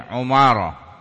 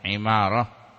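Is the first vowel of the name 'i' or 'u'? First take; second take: u; i. First: The first vowel is a u sound. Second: The first vowel is an i sound. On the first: This is a less common but acceptable reading. "bisa juga Ubay bin Umarah, bisa" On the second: This is the better-known reading. "Tetapi yang kasrah masyhur, bacaan Imarah"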